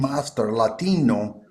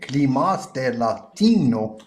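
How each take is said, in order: First: It is said in the speaker's ordinary accent. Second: It is said in a put-on Spanish accent.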